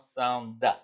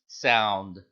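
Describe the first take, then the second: First: A short a vowel follows the final d. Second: No vowel follows the final d. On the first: The speaker calls it wrong. "It's not sound da" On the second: The speaker calls it right. "It's just sound. The D just becomes a silent letter D"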